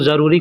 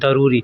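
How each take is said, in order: First: The word begins with a z sound. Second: The word begins with a d sound. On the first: This is how it is said in Hindi and Urdu. "Hindi उर्दू में भी हम लोग ज़रूरी कहते हैं" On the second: This is how Arabic speakers say it. "अरबी में लोग दरूरी बोलते हैं"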